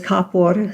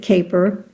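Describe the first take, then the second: First: The name is said as ka-por, ending in -por. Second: The name is said like the English word caper. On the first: This is how the name was said in the old country. "in the old country, it was Kapor" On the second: This is how English speakers say the name. "In English, they pronounce it Caper"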